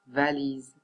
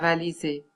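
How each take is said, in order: First: The final e is silent. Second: The final e is pronounced as a vowel. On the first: The speaker calls it right. "On dit chaise, on dit valise" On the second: The speaker calls it wrong. "On ne dit pas valiser"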